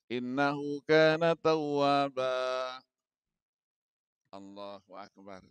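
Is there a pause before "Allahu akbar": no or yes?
yes. There is a pause before the final phrase. The speaker calls it right.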